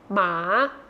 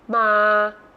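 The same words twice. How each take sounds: First: The pitch rises from low to high. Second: The pitch stays low throughout.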